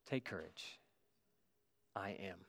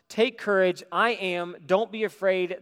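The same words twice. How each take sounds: First: Much softer and lower, gently reassuring; calm a frightened friend in a hushed voice; tender reassurance. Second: Louder and higher, ringing out over the storm; bold call. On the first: Jesus calms his frightened disciples. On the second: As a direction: call it across the waves with confidence. Jesus calls to the disciples. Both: Acted.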